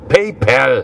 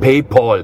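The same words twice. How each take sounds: First: The second syllable has an 'a' vowel. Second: The second syllable has an 'o'-like vowel. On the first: The speaker calls it right. "Da steht ein A und kein O" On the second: The speaker calls it wrong. "Nicht PayPal"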